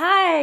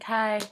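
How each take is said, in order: First: The greeting sounds warm and friendly. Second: The greeting sounds cold and rude.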